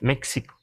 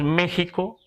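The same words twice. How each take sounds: First: The x is sounded like ks. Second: The x is sounded like a breathy h. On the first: This is how English speakers read the spelling. "porque pronuncian la X" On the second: This is the usual Spanish form used in Mexico. "está castellanizado decir México"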